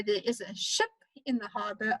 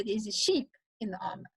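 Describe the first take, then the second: First: Said in the usual way. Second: "sheep" with a long ee instead of short i; ship said as sheep. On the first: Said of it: "If I say". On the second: Shown as a demonstration. Teacher demonstrating a vowel mix-up for the class. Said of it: "I will say".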